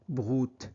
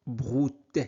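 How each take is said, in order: Both takes have the same delivery.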